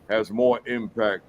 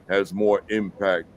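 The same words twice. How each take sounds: No difference in how they are said.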